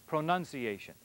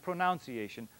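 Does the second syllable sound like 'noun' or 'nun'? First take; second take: nun; noun. First: The second syllable sounds like 'nun'. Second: The second syllable sounds like 'noun'. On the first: The speaker calls it right. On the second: The speaker calls it wrong.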